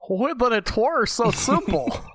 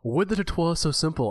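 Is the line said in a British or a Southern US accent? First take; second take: Southern US; British. First: It is said in a thick Southern US accent. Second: It is said in a British accent. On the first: "this guy, like, with this really thick, like, southern accent" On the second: "the director's this British man"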